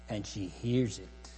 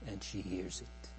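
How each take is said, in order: First: Said in the usual way. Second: Much softer, dropped low in level; soft echo. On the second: Real, not acted. Preacher echoing the bride's hearing, softly. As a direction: let the repeat fall away to a hush.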